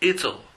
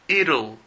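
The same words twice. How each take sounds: First: It is said with a British accent. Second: It is said with an American accent.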